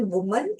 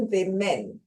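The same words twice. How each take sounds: First: वुमन said as woo-mun; careful demo of वुमन, first vowel like put; woman singular. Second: विमेन said as wi-men; careful demo of विमेन, first vowel like bit; women plural. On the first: Teacher shows students how वुमन sounds, with oo. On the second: Teacher contrasts plural विमेन with an i sound. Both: Shown as a demonstration. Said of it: "इसका pronunciation".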